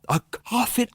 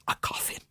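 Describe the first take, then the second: First: Shocked cry. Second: Stunned whisper. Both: Acted. Hears of friend's coffin.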